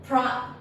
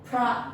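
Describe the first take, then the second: No difference in how they are said.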